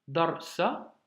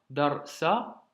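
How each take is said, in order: The two takes are said the same way.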